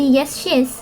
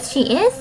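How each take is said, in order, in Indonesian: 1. Kata she dan is disingkat bersama. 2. Kata she dan is diucapkan terpisah. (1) "itu tidak boleh menjadi" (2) "harus tetap diucapkan menjadi"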